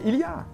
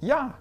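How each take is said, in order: First: All three syllables are pronounced in full. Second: It is shortened to a single syllable. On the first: "vous connaissez il y a" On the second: "qui devient ya"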